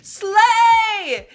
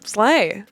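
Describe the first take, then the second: First: It is said loudly and emphatically. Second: It is said lightly and casually.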